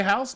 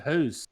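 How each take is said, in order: First: Said in the usual way. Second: "who's" with a long oo; "who's", rhyming with moose; Canadian "hoose". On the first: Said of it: "They do say house different". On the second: Shown as a demonstration. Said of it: "They say who's".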